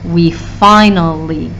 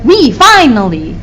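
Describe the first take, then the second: First: 'We' is unstressed before a stressed 'finally'. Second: Both 'we' and 'finally' carry stress. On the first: The speaker calls it right. "With we, we probably don't have a stress" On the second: The speaker calls it wrong. "two stresses next to each other. We finally doesn't sound right"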